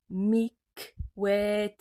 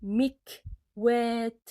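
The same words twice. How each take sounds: First: Teacher repeats the word with the final t fully sounded; repeated Arabic word. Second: Carefully articulated Arabic word; teacher models the word, sounding out each letter. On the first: Teacher repeating example word for students, clear. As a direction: clear second reading of Mikwet. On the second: Teacher reading Arabic example word to students, slow and clear. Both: Shown as a demonstration. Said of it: "Le kaf est au milieu de mot".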